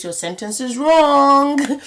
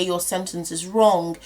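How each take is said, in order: First: Slow, stressed and higher on wrong, a bit louder; slowed-down emphasis on wrong; emphatic warning. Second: Said in the usual way. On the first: Shown as a demonstration. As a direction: lean hard on the word wrong as a teacher's warning. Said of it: "if you take out one of those shays". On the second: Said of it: "if you say báwo ni without that shay".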